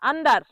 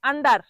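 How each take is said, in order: Both takes have the same delivery.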